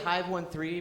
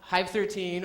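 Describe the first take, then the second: First: The number is said as 'one three'. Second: The number is said as 'thirteen'. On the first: "it's supposed to rhyme with five one three" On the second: "It is called Hive thirteen"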